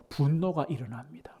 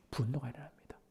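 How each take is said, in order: First: Whisper. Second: 분노가 일어납니다 breathed out even softer; softer echo of 분노가 일어납니다; fading whisper. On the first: Whispered repetition. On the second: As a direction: let 분노가 일어납니다 fade to almost nothing. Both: Real, not acted.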